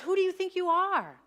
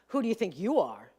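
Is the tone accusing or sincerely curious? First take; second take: sincerely curious; accusing. First: It sounds like a sincere, curious question. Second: It sounds accusing, like a challenge.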